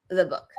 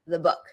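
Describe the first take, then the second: First: 'The' is unstressed with a schwa vowel. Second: 'The' is unstressed with a schwa vowel.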